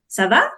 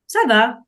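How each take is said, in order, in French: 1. La voix monte à la fin, ça demande. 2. C'est dit d'un ton calme et neutre, comme une affirmation. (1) "soit tu es en train de poser une question" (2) "soit tu dis que ça va bien"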